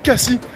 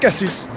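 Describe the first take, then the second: First: The final s is left silent. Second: Every letter is sounded, including the final s. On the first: Locals use it to show they are not tourists. "les gens disent beaucoup Cassis" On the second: This follows the spelling. "en provençal, on prononce toutes les lettres"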